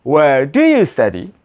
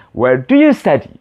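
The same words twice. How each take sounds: First: Slower second take ending in a rise on study; slowed repeat for pupils to copy; slower model phrase. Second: Model phrase. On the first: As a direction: repeat it slower with a questioning lift. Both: Shown as a demonstration. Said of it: "repeat sample after me".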